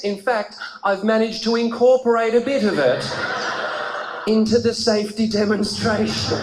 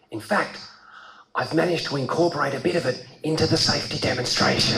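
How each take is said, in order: First: Retold stewardess, emphatic and measured; lightly voiced, emphatic flight attendant; stewardess announcing. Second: Lower, understated stewardess quote; lightly voiced flight attendant; stewardess confiding. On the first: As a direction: replay her line with more punch. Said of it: "She said". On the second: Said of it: "And she said, and I'm not kidding".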